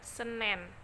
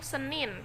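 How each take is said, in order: First: The last vowel is an 'e' sound. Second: The last vowel is an 'i' sound. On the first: This is a regional, non-standard form. The speaker calls it wrong. "dalam bahasa tidak baku penulisannya adalah" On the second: This is the standard form. The speaker calls it right. "Dalam bahasa baku"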